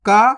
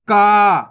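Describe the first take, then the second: First: "का" as a short, brisk ka; short vowel. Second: "का" as a long, loud kaa; drawn-out vowel. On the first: Teacher reciting the barakhadi chart, "का" said short. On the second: Teacher reciting the barakhadi chart, "का" drawn out. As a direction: hold the vowel of "का" at full voice. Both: Shown as a demonstration. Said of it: "एक एक करके अपन पढ़ते हैं".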